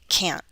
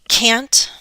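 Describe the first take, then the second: First: The T is a glottal stop. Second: The T is fully released.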